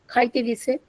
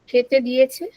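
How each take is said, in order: First: The phrase is said in a shortened colloquial form. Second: The phrase is said in its full standard form. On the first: "they pronounce" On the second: "we find the word"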